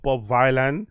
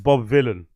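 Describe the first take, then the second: First: The first syllable sounds like 'vie'. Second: The first syllable sounds like 'vill'. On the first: The speaker calls it wrong. "not Bob Vilan, like I've been pronouncing it. It looks like Violent" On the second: The speaker calls it right. "villain rhymes with Dylan"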